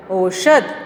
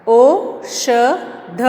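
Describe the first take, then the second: First: Said in the usual way. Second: औषध drawn out very slowly; teacher drawling औषध slowly; slow stretched reading. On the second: Shown as a demonstration. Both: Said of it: "यहाँ देखिए".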